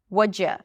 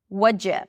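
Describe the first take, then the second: Both takes have the same delivery.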